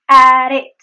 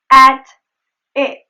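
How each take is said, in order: First: Loud "At it" joined by a tap; linked flap T. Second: "At it" apart, "At" punched loud with clear T; separated words. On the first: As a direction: flick "At" straight into "it". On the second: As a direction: pause between "At" and "it". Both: Shown as a demonstration. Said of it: "The flap T is just at the end".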